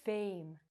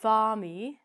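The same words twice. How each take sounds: First: "fame" with a long a and silent e; "fame" quietly, no final vowel; correct pronunciation. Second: "farmy" with an ee sound added on the end; a louder "farmy" that voices the final e; wrong pronunciation. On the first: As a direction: say "fame" as one soft syllable. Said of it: "we say". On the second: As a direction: say "farmy" as two syllables. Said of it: "We don't say". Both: Shown as a demonstration.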